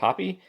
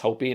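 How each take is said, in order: First: The first vowel is a short 'o' sound. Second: The first vowel is a long 'oh' sound. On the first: The speaker calls it wrong. "not Hoppy" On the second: The speaker calls it right. "I think it's Hopi"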